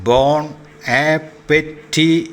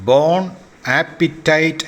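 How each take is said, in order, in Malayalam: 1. അവസാനത്തെ വാക്ക് 'ee' ശബ്ദത്തിൽ അവസാനിക്കുന്നു. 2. അവസാനത്തെ വാക്ക് 'ite' ശബ്ദത്തിൽ അവസാനിക്കുന്നു. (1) "എന്നാണ്" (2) "എന്നല്ല"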